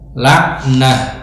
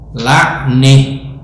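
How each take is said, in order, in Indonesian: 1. Vokal sebelum h di akhir adalah a terbuka. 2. Vokal sebelum h di akhir condong ke e.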